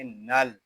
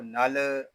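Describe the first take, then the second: First: नल closed on a still, held l; laam with sukoon. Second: नल with the final l released into a short extra vowel; wrong unsettled laam. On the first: Teacher shows the correct reading, नल with a settled l. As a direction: rest on the final l of नल, no bounce. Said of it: "इसको सुकून के साथ अदा करेंगे". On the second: Teacher warns against this reading, नल with a bounced final l. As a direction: let the l of नल bounce loose. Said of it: "इसको नल नहीं पढ़ेंगे". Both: Shown as a demonstration.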